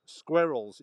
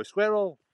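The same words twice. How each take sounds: First: Squirrels said with a clear vowel, carefully; careful model word; correct pronunciation. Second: Squirrel with mumbled vowels, high mock; mocking the local accent. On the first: Shown as a demonstration. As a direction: say Squirrels slowly and properly. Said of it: "you're supposed to say squirrels". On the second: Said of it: "you mumble some of your vowels and you just go".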